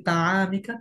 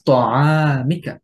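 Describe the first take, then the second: First: তাআমিকা with a thin, light ত like তা; light letter, wrong. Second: তাআমিকা with a heavy ত, stretched out very slowly; heavy Arabic letter. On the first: Teacher showing the mistaken light তাআমিকা. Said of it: "তায়ের মতন হয়ে যাবে". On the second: Tajweed teacher modelling the correct heavy তাআমিকা for students. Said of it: "বলতে হবে". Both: Shown as a demonstration.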